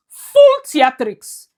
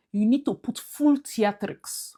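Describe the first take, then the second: First: "Full theatrics" slow, high and loud, each word punched; stress on Full theatrics. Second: Said in the usual way. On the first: Shown as a demonstration. Urging Regina to go all out, slow punched "Full theatrics". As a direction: drag out "Full theatrics" with big emphasis.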